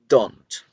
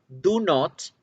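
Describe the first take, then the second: First: It is said as one contracted word. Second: It is said as two separate words. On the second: "Separado es"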